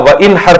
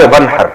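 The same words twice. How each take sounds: First: وانحر with the alif sounded, wa-inhar; original unjoined form. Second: ونحر run together as wanhar, alif silent; joined reading. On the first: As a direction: say وانحر as two parts, wa, then in-har. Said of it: "اصل میں تھا وانحر". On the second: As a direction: link it straight through: ونحر, wan-har. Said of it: "پڑھا جاتا ہے ملا کے ونحر". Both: Shown as a demonstration.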